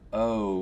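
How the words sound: The vowel glides from one quality to another. "vowel sounds that for me are diphthongs"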